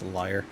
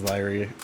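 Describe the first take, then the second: First: The word sounds like 'liar', rhyming with fire. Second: The word sounds like 'leery', two syllables. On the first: The speaker calls it wrong. "but I pronounce it as liar" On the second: The speaker calls it right. "it's pronounced as Lyrie"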